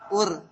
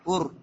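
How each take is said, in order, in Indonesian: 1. Bunyi r ringan dan tipis. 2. Bunyi r berat dan tebal. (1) "Jangan sampai ur" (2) "Tapi ur"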